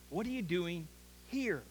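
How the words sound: The word here carries the main stress.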